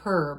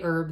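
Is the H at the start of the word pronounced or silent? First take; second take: pronounced; silent. First: The word begins with an audible H sound. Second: The word begins with a vowel, no H sound. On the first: "where I come from, we do not say herb" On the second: "We say herb. The H is silent"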